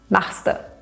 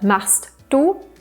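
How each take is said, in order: First: The two words are merged into one contracted word. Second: The two words are said separately in full.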